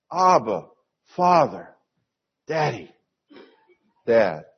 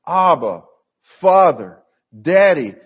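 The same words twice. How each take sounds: First: Separate, affectionate names, dropping away at the end; intimate family address. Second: Loud, separated calls to a father; demonstrated cry to God, louder on each name. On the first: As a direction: say each name gently, like a child to a dad. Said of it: "the most intimate family fashion". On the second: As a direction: call out each name firmly, raised voice. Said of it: "we cry out". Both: Shown as a demonstration.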